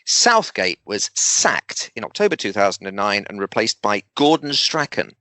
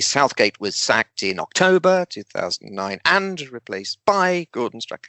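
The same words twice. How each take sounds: First: Southgate, sacked and Gordon Strachan are clearly emphasised. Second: It is said in an even rhythm without emphasis. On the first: The speaker calls it right. "Can you see how I've emphasised those three things?" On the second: The speaker calls it wrong. "they'll just get into a bit of a rhythm"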